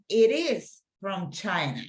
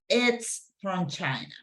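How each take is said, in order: First: Both words 'it is' are said separately. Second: 'It is' is shortened to one syllable.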